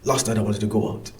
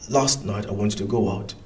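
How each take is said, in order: First: The sentence is said very fast. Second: The sentence is said more slowly. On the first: "faster. ... Maybe that was too fast" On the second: "let's go more slowly"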